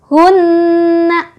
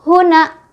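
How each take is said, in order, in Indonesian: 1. Huruf n digandakan dengan dengung hidung yang ditahan. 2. Huruf n dibaca pendek tanpa dengung hidung. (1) "Itu bacaan yang betul ya" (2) "tidak ada tasydid"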